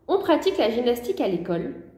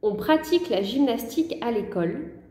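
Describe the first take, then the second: First: It is read at normal dictation speed. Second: It is read more slowly and gently.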